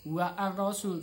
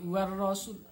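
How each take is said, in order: First: The article is sounded separately before the r. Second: The article merges into a doubled r sound. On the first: The speaker calls it wrong. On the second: The speaker calls it right. "alif lamnya ketika dibaca seakan-akan tidak ada"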